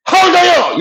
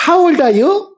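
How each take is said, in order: First: High, quarrelsome English demand; angry challenge. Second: Put-on high smiling question to a child; friendly, with a smile. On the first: Teacher showing an angry age challenge, high indignant voice. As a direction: throw it out as a fighting challenge. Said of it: "말하다가 화나면 그러지". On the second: Teacher showing how to ask a child's age, smiling high voice. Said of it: "웃으면서 한단 말이야". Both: Shown as a demonstration.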